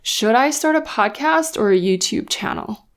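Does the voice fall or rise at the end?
fall. The voice falls at the end, offering a choice.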